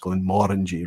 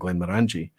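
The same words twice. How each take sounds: First: The stress falls on the 'mor' syllable. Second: The stress falls on the 'ang' syllable. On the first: The speaker calls it right. "that's the more is where you should emphasize it" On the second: The speaker calls it wrong. "obviously the Angie or the orangey part being the emphasis"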